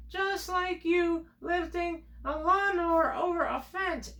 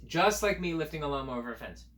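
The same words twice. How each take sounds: First: Much higher, teasing squeak; mock high voice. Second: Said in the usual way. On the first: Telling kids a silly comparison, high mock voice.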